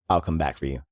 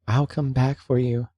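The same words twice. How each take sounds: First: It is said menacingly, like a threat. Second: It is said softly, like a gentle promise.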